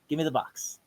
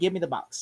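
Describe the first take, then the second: First: It is said in a calm, quiet way. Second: It is said in an agitated, angry way.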